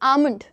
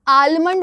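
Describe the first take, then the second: First: The l sound is left out of the word. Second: The l sound is pronounced in the word. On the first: The speaker calls it right. "It's आमंड" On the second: The speaker calls it wrong. "आलमंड करते हैं लोग, but that's not right"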